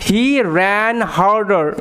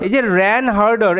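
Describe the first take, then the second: First: "He ran harder" drawn out very slowly; slow teaching read; slow, clear read. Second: Said in the usual way. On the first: Shown as a demonstration. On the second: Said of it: "কথার অর্থ".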